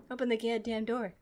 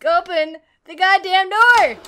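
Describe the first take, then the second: First: Low, soft grumble; subdued, fed-up command; quiet irritation. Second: Forceful frustrated shout; angry yell. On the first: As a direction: mutter it under your breath. First take, muttered to the game. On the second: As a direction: yell the command in exasperation. Second take, yelled at the game. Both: Real, not acted.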